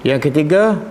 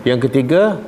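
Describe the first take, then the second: No difference in how they are said.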